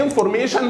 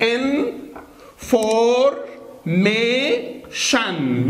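First: Said in the usual way. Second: "إن فور مي شن" drawn out slowly, in... for... mee... shan; syllable by syllable. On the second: Shown as a demonstration. Teacher takes it one by one for students, "إن فور مي شن" slowly syllable by syllable. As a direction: break "إن فور مي شن" into long syllables with pauses. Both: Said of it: "ناخدها واحدة واحدة".

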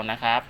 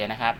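No difference in how they are said.

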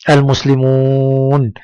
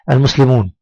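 First: المسلمون slowly, with a very long oo; drawn-out madd. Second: المسلمون said briskly, oo kept short; quick reading. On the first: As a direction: hold the final oo of المسلمون steady. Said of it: "مد بالواو". (مدّ الواو طويلًا في المسلمون) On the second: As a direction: read المسلمون quickly without stretching it. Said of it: "أنا أنطق الكلمات بسرعة". (نطق المسلمون بسرعة دون مدّ) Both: Shown as a demonstration.

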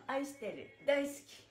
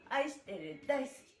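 No difference in how they are said.

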